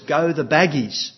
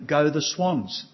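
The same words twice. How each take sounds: First: Put-on a loud little-kid shout of the team name; loud toddler cheer. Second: Put-on slow, drawn-out little-kid chant of the team name; lightly voiced two-year-old cheering his team; toddler cheer. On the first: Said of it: "he says in a loud voice". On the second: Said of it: "He's very good at saying".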